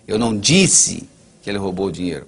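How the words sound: The stress is on "disse".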